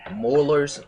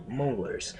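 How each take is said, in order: First: "Molars" loud, with an open "aw" vowel; slipped pronunciation. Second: "molars" with a long "oh" vowel; corrected pronunciation. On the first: Reader stumbling over a word, saying "Molars" as "mawlers". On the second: Reader correcting a stumble, saying "molars" as "moh-lers". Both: Real, not acted. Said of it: "I'm sorry, mol".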